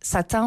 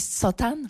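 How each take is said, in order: First: It is said with standard French pronunciation. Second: It is said with a Persian-influenced pronunciation.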